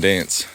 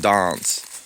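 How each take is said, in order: First: It is said with an other Australian vowel. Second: It is said with a South Australian vowel. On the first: "everywhere else says plant and dance" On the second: "the South Australians say plant, and you go for a dance"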